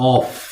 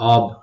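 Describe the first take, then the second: First: The word ends with an f sound. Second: The word ends with a v sound. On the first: "এটা হচ্ছে হচ্ছে অফ" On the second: "এটা কিন্তু অফ নয়, এটা অব"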